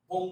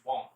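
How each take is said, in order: First: বোম with a closed 'o' vowel; wrong pronunciation. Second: বম with an open vowel, silent b; correct pronunciation. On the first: Teacher warning learners, wrong pronunciation. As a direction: say বোম as the form to avoid. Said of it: "আমরা বোম বলি না". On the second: Teacher correcting learners, correct pronunciation. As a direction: end বম on the m. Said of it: "উচ্চারণ, বম". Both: Shown as a demonstration.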